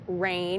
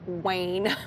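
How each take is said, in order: First: The word begins with a clear R sound. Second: The word begins with a W sound. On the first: "instead of rain" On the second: "they can't say R's"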